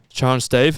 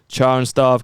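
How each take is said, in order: First: The last word has an 'ay' vowel, like 'stave'. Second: The last word has an 'ar' vowel, like 'starve'. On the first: The speaker calls it right. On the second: The speaker calls it wrong.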